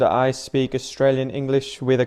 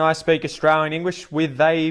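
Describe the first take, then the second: First: It is said in a cultivated Australian accent. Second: It is said in a broad Australian accent. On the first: "I speak Australian English with a cultivated accent" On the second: "I speak Australian English with a broad Australian accent"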